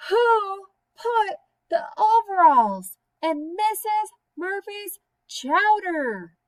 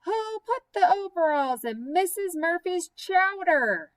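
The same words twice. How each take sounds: First: High, slow, loud wailing shout; shouting herself hoarse for an answer; loudest shout. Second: Higher, louder call across the room; a louder, higher demand for an answer. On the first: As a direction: bellow it out at full force. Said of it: "So she said it all the louder". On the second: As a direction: call it out to the whole table. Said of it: "so she said it all the louder". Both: Acted.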